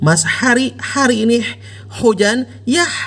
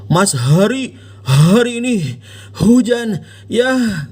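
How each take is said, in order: First: The H sounds are made in the mid-throat. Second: The H sounds are pushed heavily from the chest. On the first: "Tidak juga pakai H tengah tenggorokan" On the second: "Anda nggak bilang"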